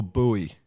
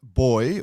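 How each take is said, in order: First: "buoy" said as "BOO-ee"; "buoy" with an OO then EE; pronunciation variant. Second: Put-on "buoy" said just like "boy"; "buoy" rhyming with "toy"; pronunciation variant. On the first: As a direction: say buoy in two syllables, "boo-ee". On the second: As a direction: say buoy as one syllable, "boy". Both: Shown as a demonstration. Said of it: "is it buoy or buoy".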